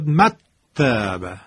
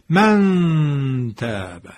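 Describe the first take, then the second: First: The n disappears into a doubled t. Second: The n is hidden as a drawn-out nasal hum. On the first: The speaker calls it wrong. "نون خونده نمیشد، حرف تا مشدد میشد" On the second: The speaker calls it right. "این میشه اخفا... من دارم میکشم... از فضای بینی"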